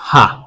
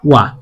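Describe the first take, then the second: First: The syllable begins with an h sound. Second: The syllable begins with a w sound. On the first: It is read as a letter of the alphabet. "এই অক্ষরটা কি পড়ছিলাম? হা।" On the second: It is used as a grammar particle. "এটার উচ্চারণ হবে ওয়া।"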